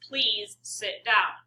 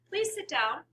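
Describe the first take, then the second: First: It is said in a low, stern pitch. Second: It is said in a higher, lighter pitch. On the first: "This would be my teacher voice" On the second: "That's a much lower pitch than"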